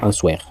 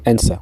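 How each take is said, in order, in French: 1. Un son W est prononcé dans le mot. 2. Le W est muet dans le mot. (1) "on dit pas answer" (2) "on dit seulement Ansa"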